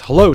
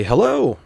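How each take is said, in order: First: A pointed "Hello", aimed at one person; pointed greeting. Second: High, eager "Hello"; mirrored enthusiasm. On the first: Sun-hat customer greeting the bartender, pointedly. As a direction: greet with intent to connect. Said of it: "Says it with a pointed tone". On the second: Bartender greeting the customer right back, enthusiastically. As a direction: greet back brightly, pitch up then falling. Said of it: "I mirror his enthusiasm". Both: Retold or imitated.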